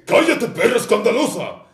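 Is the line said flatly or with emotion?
with emotion. It is said with strong, expressive emotion.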